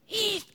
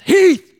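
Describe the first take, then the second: First: The name is said very quietly. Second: The name is said loudly, almost shouted.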